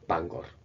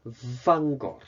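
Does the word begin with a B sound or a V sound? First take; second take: B sound; V sound. First: The word begins with a B sound. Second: The word begins with a V sound.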